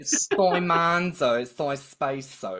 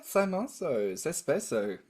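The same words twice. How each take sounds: First: Hammed-up Australian accent, slow and loud; thick Australian accent. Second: Italian words in a light Australian accent. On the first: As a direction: play up the Australian accent on purpose. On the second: Real, not acted. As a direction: say the Italian with a mild Australian twang. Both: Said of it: "Australian accent got thicker".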